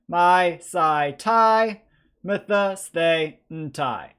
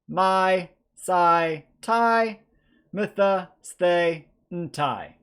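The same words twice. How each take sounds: First: The endings are said at a fast pace. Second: The endings are said at a medium pace.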